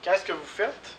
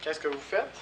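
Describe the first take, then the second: First: Qu'est-ce stressed and higher, the question rising; question model. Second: Faites carries the stress at the rising end; softer repeat. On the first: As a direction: lift Qu'est-ce high to open the question. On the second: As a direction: repeat it more softly, weight on faites. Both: Shown as a demonstration. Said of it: "Les questions avec faire".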